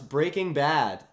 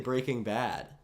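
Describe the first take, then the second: First: The pitch goes up, then down. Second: The pitch goes down, then up.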